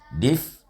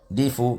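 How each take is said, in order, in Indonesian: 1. Kata itu berakhir dengan jelas pada konsonan f. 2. Kata itu berakhir dengan vokal u samar yang hanya sebagian.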